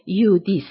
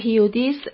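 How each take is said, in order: First: The name begins with a y sound. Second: The name begins with an h sound. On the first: The speaker calls it right. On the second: The speaker calls it wrong.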